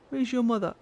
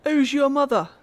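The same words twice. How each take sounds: First: Said in the usual way. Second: Higher and louder, playful imitation of the curious boy; mock child voice. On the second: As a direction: ask it like an eager little boy. Mock-voicing the boy character.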